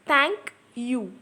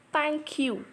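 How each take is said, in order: First: "Thank ... you", a pause between the two syllables; split into two syllables. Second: Said in the usual way. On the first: Shown as a demonstration. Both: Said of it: "it is a two syllable word".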